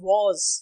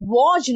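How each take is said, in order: First: The word ends with a 'z' sound. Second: The word ends with a 'j' sound. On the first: The speaker calls it right. "It's वॉज" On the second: The speaker calls it wrong. "नहीं होता"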